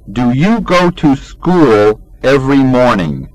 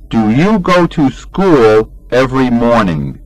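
Both takes have the same delivery.

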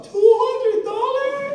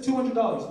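First: High, loud, slow astonished cry; shocked at price. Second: Said in the usual way. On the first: Retold or imitated. Dad echoes son's watch price in shock. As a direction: repeat the price in disbelief. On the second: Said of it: "Yeah, this".

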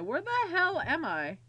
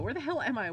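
First: Higher, exaggerated swoop on "hell"; frantic repeat. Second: Said in the usual way. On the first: Real, not acted. Player lost in the gallery, frantic stress on "hell". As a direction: punch "hell" high, frantic and bewildered.

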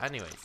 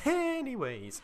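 First: Said in the usual way. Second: "Anyways" stretched out very high, then falling; exaggerated drawn-out repeat. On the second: Player changing the subject, "Anyways" stretched high and playful. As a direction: draw out "Anyways" high and silly.

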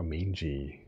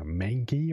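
First: Slow "Mingy" said "MAYN-jee"; "Mingy" with a j sound, drawn out; soft-g pronunciation. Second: Slow "Mangy" said "MANG-ghee"; "Mangy" with a hard g, drawn out; hard-g pronunciation. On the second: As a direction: sound out "Mangy" with g as in "go". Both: Shown as a demonstration. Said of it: "Maybe I've been pronouncing the word wrong".

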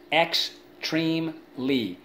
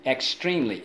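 First: "Extremely" slowly as ex, treme, ly; slow classroom breakdown of "Extremely"; syllable by syllable. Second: Said in the usual way. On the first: Shown as a demonstration. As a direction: sound out "Extremely" in three beats, pitched up. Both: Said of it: "Let's go".

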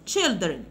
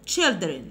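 No difference in how they are said.

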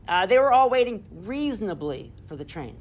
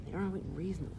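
First: Said in the usual way. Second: Softer, lower, savouring "They were all waiting reasonably"; hushed echo of "reasonably"; quiet repeat. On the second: Shown as a demonstration. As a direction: murmur it back to yourself. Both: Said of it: "Like Hemingway's".

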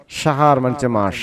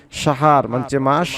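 Both takes have the same delivery.

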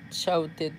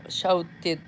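No difference in how they are said.

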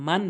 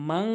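First: মান ending in a short, clear n; plain n. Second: মাং with the final n hummed through the nose; nasal ghunna. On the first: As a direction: say মান with no nasal hum. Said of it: "একটি হচ্ছে মান বলে". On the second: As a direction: hold a nasal "ng" at the end of মাং. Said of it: "গুণনা করে বলতে হবে". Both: Shown as a demonstration.

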